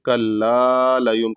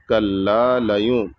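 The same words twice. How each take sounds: First: The vowel after 'kall' is stretched very long. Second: The vowel after 'kall' is held only briefly. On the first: The speaker calls it wrong. "बहुत सारे लोग इसमें गलती कर देते हैं, कल्ला लयूम कर देते हैं, जो कि गलत है" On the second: The speaker calls it right. "यहाँ पर कल्ला को सिर्फ एक अलिफ के बराबर खींचना है"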